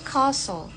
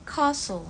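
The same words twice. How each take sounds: First: It is said in a British accent. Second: It is said in a British accent.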